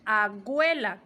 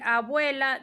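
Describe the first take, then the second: First: Agüela, G sound for B. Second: Said in the usual way. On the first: Shown as a demonstration. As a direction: informal agüela. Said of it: "dicen agüela con G". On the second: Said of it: "En vez de decir abuela".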